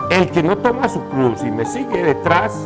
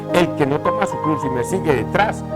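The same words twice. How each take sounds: Both takes have the same delivery.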